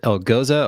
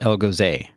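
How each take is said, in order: First: The name does not end like 'Jose'. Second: The name ends rhyming with 'Jose'.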